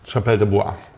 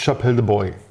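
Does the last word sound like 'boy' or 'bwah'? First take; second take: bwah; boy. First: The last word sounds like 'bwah'. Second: The last word sounds like 'boy'. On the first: The speaker calls it right. "B-O-I spricht sich" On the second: The speaker calls it wrong. "Boy ist, glaube ich, falsch ausgesprochen"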